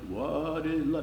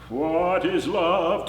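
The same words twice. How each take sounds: First: It is said softly, with energy pulled back. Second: It is said strongly, with full resonant energy. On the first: The speaker calls it wrong. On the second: The speaker calls it right.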